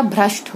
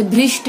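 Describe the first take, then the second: First: Said in the usual way. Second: भ्रष्ट said as "bhrisht"; mispronounced vowel. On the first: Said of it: "भ्रष्ट होता है". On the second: Shown as a demonstration. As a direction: put an "i" after the r in भ्रष्ट. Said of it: "भ्रष्ट नहीं होता".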